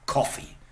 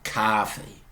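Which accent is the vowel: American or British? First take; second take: British; American. First: The vowel is a short rounded 'o'. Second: The vowel is an open unrounded 'ah'.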